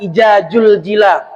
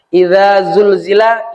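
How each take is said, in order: First: The consonants are said as j sounds. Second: The consonants are said as z sounds. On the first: The speaker calls it wrong. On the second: The speaker calls it right.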